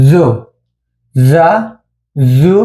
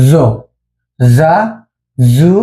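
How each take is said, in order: The two takes are said the same way.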